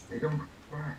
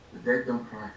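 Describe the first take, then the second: First: Hushed. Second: Said in the usual way. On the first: Acted. Solemn contrast with the living.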